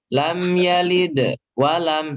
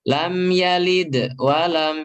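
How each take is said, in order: First: A long pause breaks the phrase apart. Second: The same.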